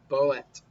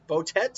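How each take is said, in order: First: The name is said with one T sound. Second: The name is said with two T sounds.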